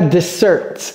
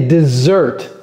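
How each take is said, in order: First: The middle consonant is a hissing s sound. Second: The middle consonant is a buzzing z sound. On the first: The speaker calls it wrong. "quand bien même c'est deux S, ce n'est pas dessert" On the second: The speaker calls it right. "c'est dessert"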